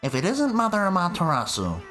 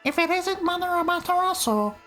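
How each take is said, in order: First: It is said in a lower voice. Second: It is said in a higher voice.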